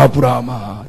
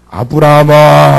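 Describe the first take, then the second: First: Said in the usual way. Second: Calling out. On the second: Acted. God calls Abraham.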